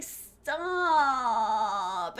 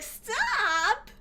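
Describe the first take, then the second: First: Long, drawn-out whine; imitation of a villain's drawn-out whine; Albert Wesker whining. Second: High, stretched whine rising at the end; incredulous high-pitched parody of whining; mocking whiny echo. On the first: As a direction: stretch one word into a whiny, falling moan. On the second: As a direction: mimic the whine in disbelief, pitched way up. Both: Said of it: "the whine".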